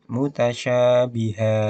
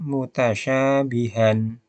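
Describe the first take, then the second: First: The word ends with a vowel held two counts. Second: The word ends with a short vowel and n. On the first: "Menjadi mutasyabiha. Dua harokat" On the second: "akan terbaca mutasyabihan, han ya"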